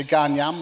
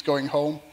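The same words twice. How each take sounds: First: Broad Cumbrian gan yam, louder; Cumbrian accent. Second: Said in the usual way. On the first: Shown as a demonstration. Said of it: "So you say". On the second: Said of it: "which means going home".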